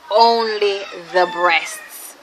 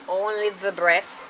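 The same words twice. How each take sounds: First: "only the breasts" slow and louder, stress on "only"; slow, insistent "only"; emphatic repeat. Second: Said in the usual way. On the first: Shown as a demonstration.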